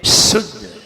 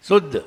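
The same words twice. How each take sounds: First: शुद्ध with a long whistling "sh"; "sh" as in शकर. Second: शुद्ध as "suddh", weak plain "s"; no whistle, begin शुद्ध like सड़क. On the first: Teacher contrasts with the s spelling, whistling शुद्ध. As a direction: hiss strongly into शुद्ध. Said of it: "S H". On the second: Teacher reads the s-u spelling, शुद्ध as "suddh". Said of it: "S U double D". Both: Shown as a demonstration.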